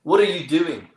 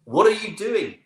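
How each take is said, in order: First: Louder, raised South African challenge; South African accent. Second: Much higher, insistent South African repeat; South African accent. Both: Retold or imitated. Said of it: "forgive my accent here".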